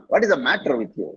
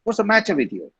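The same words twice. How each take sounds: First: "matter" with soft t and r-colored end; correct "matter". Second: "matter" with ch sound, "macha"; mock Tamil-English "matter". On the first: Shown as a demonstration. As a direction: say "matter" cleanly, light t. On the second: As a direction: imitate a heavy "matcha" for "matter". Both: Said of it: "how you say it and impress people".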